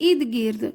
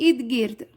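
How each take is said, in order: No difference in how they are said.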